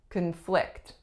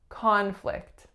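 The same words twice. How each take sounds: First: The stress is on the second syllable. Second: The stress is on the first syllable. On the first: It is used as a verb. "I'm saying a verb because my strongest syllable is the second" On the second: It is used as a noun. "So the first sound is ah, that is our winner"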